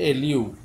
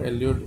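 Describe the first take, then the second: First: The final r sound is dropped. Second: The final r sound is pronounced. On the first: The speaker calls it right. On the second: The speaker calls it wrong.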